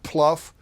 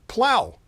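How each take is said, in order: First: The word ends with an 'uff' sound. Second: The word ends with an 'ow' sound. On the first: The speaker calls it wrong. "Not pluff" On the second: The speaker calls it right. "but plow"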